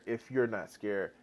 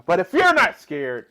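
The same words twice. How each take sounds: First: Softer. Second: Louder. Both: Real, not acted. Repeats the phrase louder then softer.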